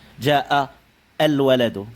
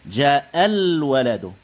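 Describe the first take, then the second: First: A glottal stop is pronounced before 'al'. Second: No glottal stop; the words run together. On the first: The speaker calls it wrong. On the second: The speaker calls it right.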